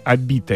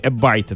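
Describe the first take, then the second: First: The name is read with a plain 'i' vowel. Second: The name is read with an 'ai' vowel.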